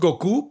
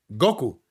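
First: The stress is on the last syllable. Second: The stress is on the first syllable.

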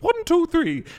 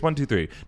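First: It is said in a higher-pitched voice. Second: It is said in a lower, normal voice.

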